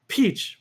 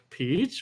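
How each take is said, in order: First: It is said as an exclamation, falling. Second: It is said as a question, rising.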